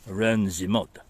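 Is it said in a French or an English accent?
French. It is said in a put-on French accent.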